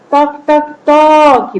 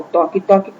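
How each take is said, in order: First: Knocking sound. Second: Said in the usual way. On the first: Shown as a demonstration. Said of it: "bateram na porta". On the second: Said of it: "é a representação do som".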